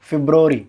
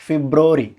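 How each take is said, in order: Both takes have the same delivery.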